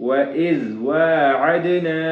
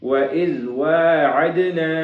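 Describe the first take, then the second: The two takes are said the same way.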